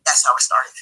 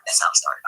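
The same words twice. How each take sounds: First: Said in the usual way. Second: Whispered, much lower. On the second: Real, not acted. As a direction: breathe it out in a hushed whisper. Repeats closing line twice.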